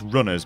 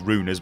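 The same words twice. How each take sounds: First: The first syllable sounds like 'run'. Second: The first syllable sounds like 'rune'. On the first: The speaker calls it wrong. "which I mistakenly initially pronounced as" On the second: The speaker calls it right. "it is Runners because the game, well, it's based around runes"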